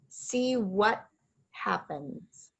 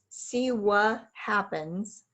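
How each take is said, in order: First: The T in 'what' is a silent stop. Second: The T in 'what' is dropped entirely. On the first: The speaker calls it right. "Correct is see what happens" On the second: The speaker calls it wrong. "incorrect is see what happens"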